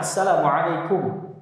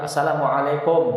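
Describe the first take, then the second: First: "Assalamualaikum" slow with lips pushed fully forward on the final kum; deliberate, rounded "Assalamualaikum"; correct dhammah. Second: "assalamualaikum" ending in a lax O, lips barely rounded; "assalamualaikum" with a sloppy open kom; wrong dhammah. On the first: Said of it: "maka monyong sempurna". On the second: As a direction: end "assalamualaikum" on a loose O. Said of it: "Enggak sempurna dhammahnya". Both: Shown as a demonstration.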